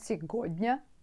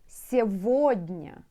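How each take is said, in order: First: The middle consonant is pronounced as a g. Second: The middle consonant is pronounced as a v. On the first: The speaker calls it wrong. "not сегодня, because сегодня you are spell it" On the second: The speaker calls it right. "When you pronounce it, сегодня"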